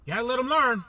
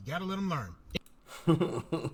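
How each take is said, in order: First: Said in the usual way. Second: Slow and soft, in a put-on voice; slow, soft mock voice. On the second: Shown as a demonstration. Mocking a party boss, drawn-out soft put-on voice. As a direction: drag it out softly in a put-on voice.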